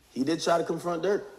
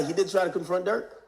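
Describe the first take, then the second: First: Said in the usual way. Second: "try" pushed up and stressed in "He did try". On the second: Shown as a demonstration. Insisting Dirk was really confronted, weight on "try". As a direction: lean hard on "try".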